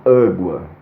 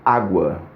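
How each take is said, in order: First: The first vowel is closed, with a narrowed sound. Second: The first vowel is open, with a full sound. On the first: The speaker calls it wrong. "em que eu fecho a garganta e diminuo a passagem do, do som" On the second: The speaker calls it right. "com o som passando inteiro pela garganta"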